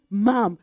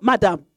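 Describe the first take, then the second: First: "Ma'am" as one short syllable, "mam"; "Ma'am" the proper way; correct ma'am. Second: "madam" as the wrong way to address her; "madam", the form to avoid. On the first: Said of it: "You say". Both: Shown as a demonstration.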